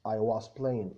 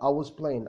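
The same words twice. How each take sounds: First: It is said slowly with a clear was. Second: It is said fast with a reduced was.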